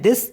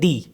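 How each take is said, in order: First: The word ends with an audible s sound. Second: The word ends on a vowel, no s. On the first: The number stands alone. "वैसे तो नॉर्मली पढ़ते हैं दिस" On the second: The number comes before a noun. "नाउन से पहले आया तो इसको पढ़ेंगे दी"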